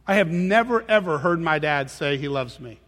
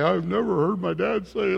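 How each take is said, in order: First: Said in the usual way. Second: Bitter complaining. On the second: Shown as a demonstration. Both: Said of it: "I'm not saying it like that".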